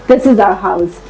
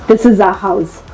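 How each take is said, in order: No difference in how they are said.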